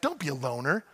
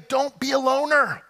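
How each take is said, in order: First: It is said with sassy, snazzy flair. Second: It is said plainly, without flair.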